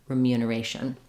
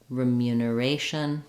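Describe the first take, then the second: First: It is said quickly and smoothly. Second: It is said at a moderate speed.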